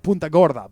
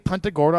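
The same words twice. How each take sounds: First: The name is pronounced the way outsiders say it. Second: The name is pronounced the way locals say it. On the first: This is how the speaker would usually say it. "I would normally say Punta Gorda" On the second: This is how the town's residents say it. "They actually say Punta Gorda"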